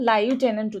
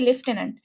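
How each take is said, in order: First: It is said without f, as 'lai-u-tenant'. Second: It is said with an f sound, 'lef-tenant'. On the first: "তুমি চাইলে এখানে লাইউটেন্যান্ট উচ্চারণ করতে পারো" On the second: "ফ আছে বাংলা উচ্চারণে"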